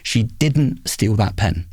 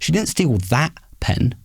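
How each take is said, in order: First: The stress falls on the word didn't. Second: The stress falls on the word that. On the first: It is the true meaning of the sentence. "if I emphasise the second word" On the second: She stole a different pen. "means that she stole a different pen"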